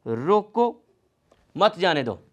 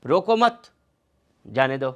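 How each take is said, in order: First: रोको on its own, long pause, then मत जाने दो run together; pause after रोको. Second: रोको मत as one raised phrase, pause, then lower जाने दो; pause after मत. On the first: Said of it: "ये इसकी पोजीशन क्लैरिफाई नहीं है। जैसे". (रोको के बाद ठहराव, फिर मत जाने दो एक साथ) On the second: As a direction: join मत to रोको, break, drop pitch on जाने दो. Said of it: "यहाँ पर लगा देता हूँ". (रोको मत एक साथ, फिर ठहराव, फिर जाने दो) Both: Shown as a demonstration.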